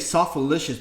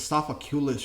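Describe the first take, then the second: First: The name ends with a 'licious' sound. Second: The name ends with a 'culous' sound. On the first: The speaker calls it wrong. "I used to say softalicious, but it's not softalicious" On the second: The speaker calls it right. "It's sophaculous or something like that"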